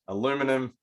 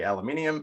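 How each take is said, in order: First: It is said the American way. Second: It is said the Australian way.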